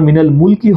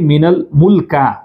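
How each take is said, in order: First: The last word ends in an 'ee' vowel. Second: The last word ends in an 'a' vowel. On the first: The speaker calls it right. "মিনাল মুলকি হওয়ার কথা" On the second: The speaker calls it wrong. "এটা হচ্ছে তাদের হাদিসের দ্বিতীয় ভুল"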